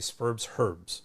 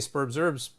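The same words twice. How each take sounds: First: The h at the start of herbs is pronounced. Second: The h at the start of herbs is silent. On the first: This is the Australian way of saying it. "but they would say" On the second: This is the American way of saying it. "We Americans have a silent H there"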